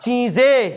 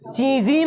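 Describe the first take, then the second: First: The word ends with an 'e' vowel. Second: The word ends with an 'ee' vowel. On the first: The speaker calls it right. "সব চিজে চিজই নয়" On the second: The speaker calls it wrong. "চিজি টিজি পড়ে ফেললে হবে না"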